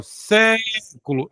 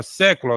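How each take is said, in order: First: "século" with a long, higher "sé"; stress on first syllable. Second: Said in the usual way. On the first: Shown as a demonstration. Teacher showing a proparoxytone, "século" with "sé" held long. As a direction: stretch "sé" in "século", then let "culo" follow. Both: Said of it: "proparoxítona".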